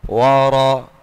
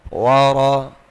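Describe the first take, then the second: No difference in how they are said.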